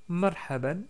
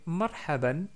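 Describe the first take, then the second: The two takes are said the same way.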